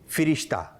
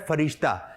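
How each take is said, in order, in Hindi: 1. पहला स्वर छोटा 'i' है। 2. पहला स्वर छोटा 'a' है। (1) "इसकी सही अदायगी है" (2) "हमारे यहाँ ये भी कहा जाता है"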